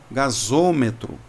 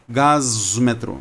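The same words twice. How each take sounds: First: An 'o' vowel is heard between 'gas' and 'metro'. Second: No vowel is heard between 'gas' and 'metro'. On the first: The speaker calls it right. "Então vai ficar gasômetro" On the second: The speaker calls it wrong. "imagina só se não tivesse o O, seria gasômetro"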